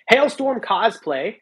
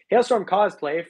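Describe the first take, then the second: First: Slow, stretched and louder, every syllable dragged out; odd drawn-out reading. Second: Said in the usual way. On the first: Real, not acted. Streamer reading a donor's name aloud, oddly slow and drawn out. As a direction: read the donor's name like a weird slow announcement. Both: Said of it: "why did I say it like that?".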